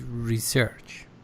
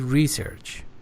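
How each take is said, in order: First: It is said with a British pronunciation. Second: It is said with an American pronunciation. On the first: "British English, it is research" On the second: "if you want to be consistent in consistent with the American pronunciation"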